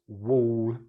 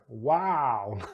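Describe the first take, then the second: First: A long rounded or vowel. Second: An open ah vowel with the jaw dropped. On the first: "our wall" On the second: "my American attempt at an accent, ... theirs would be wow"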